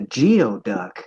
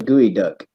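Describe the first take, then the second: First: The first part sounds like 'gee-oh'. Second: The first part sounds like 'gooey'. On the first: The speaker calls it wrong. "when I first came to Washington" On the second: The speaker calls it right. "now I know how to say this correctly"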